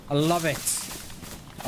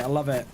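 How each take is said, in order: First: Very slow, drawn-out love it; slow savoring. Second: Said in the usual way. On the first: Real, not acted. Savoring the friend's photo, very slow and drawn out. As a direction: stretch I love it out slowly, savoring each word.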